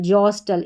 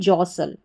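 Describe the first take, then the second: First: A t sound is heard before the final l. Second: No t sound is heard before the final l. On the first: The speaker calls it wrong. "इस तरीके से आप इसका उच्चारण कर देंगे जो गलत होगा" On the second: The speaker calls it right. "टी यहाँ पर साइलेंट है"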